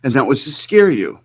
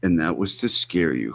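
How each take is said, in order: First: Higher, mock-dramatic repeat of And that was to scare you; mocking imitation. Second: Softer, ominous mock repeat of And that was to scare you; mocking imitation. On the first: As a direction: parrot it to ridicule him. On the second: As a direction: drop to a hushed mock menace. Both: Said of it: "Who talks like this?".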